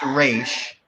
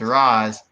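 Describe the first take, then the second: First: The name ends with an 'sh' sound. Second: The name ends with an 's' sound. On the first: This is how the comics pronounce it. "In the comics, it's Raish" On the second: This is how the movies pronounce it. "in these movies, it's Raz"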